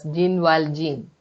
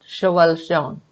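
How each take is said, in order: First: The name is said with an English pronunciation. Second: The name is said with a French pronunciation. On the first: "Maybe that is your familiar pronunciation" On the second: "But it is really pronounced as"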